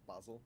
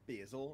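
First: It is pronounced the British way. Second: It is pronounced the American way. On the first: "instead of basil" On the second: "You say, like, basil"

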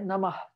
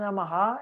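First: The word ends without an added echo vowel. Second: The final h is followed by an echo vowel. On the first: The speaker calls it right. "é Namah" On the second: The speaker calls it wrong. "Não é Namaha"

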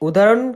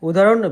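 No difference in how they are said.

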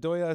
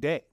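First: The name is said with two syllables, doy-ya. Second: The name is said as one syllable rhyming with say. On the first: "Doya sounds like what I heard was the most authentic" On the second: "Deye is how I've been saying it"

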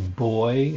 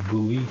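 First: It is said the British way, like 'boy'. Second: It is said the American way, two syllables.

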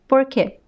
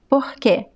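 First: The R is a curled American R. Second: The R sounds like a breathy H. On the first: "it could also sound like the American R" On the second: "It can sound like the H"

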